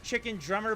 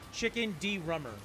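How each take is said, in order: First: The second word is said as one word, Drummer. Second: The second word is said as letter D plus Rummer. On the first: The speaker calls it right. "I get that it says Chicken Drummer" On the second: The speaker calls it wrong. "It's like a chicken with the middle initial"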